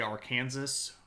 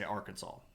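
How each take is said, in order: First: The ending is pronounced like the word Kansas. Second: The ending is pronounced unlike the word Kansas. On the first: This is how the spelling would lead you to say it. The speaker calls it wrong. "You would say Arkansas" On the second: This is how people actually say it. The speaker calls it right. "We say Arkansas because it's weird like that"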